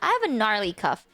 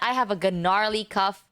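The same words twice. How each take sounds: First: It sounds light and jokey. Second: It sounds grim and disgusted. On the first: The cough is no big deal. "that just sounds like oh haha that's how I cuff guys" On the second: The cough is really bad. "it's like you know it's abysmal and disgusting"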